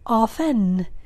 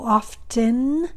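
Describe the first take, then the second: First: The T sound is silent. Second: The T sound is clearly pronounced. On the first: "my T is silent" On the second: "I am pronouncing the T"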